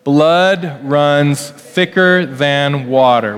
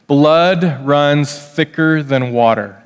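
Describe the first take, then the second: First: Put-on slow, leading the kids through it; slow call-along. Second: Slow, deliberate saying; slow recitation. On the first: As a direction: say it slowly so children can follow. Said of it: "Can you kids say that with me". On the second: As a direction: spell out the saying word by word. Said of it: "a saying that goes like this". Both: Shown as a demonstration.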